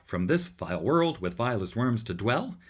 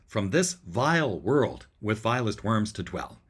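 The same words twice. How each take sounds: First: It keeps an even alternating rhythm. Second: Both vile and world are stressed.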